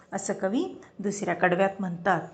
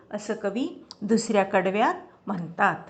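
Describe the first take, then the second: The two takes are said the same way.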